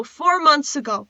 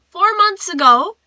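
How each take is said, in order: First: Said in the usual way. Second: Higher, louder FOUR MONTHS AGO, rising at the end; stunned, rising "Four months ago"; incredulous repeat. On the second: Real, not acted. Repeats the date in disbelief.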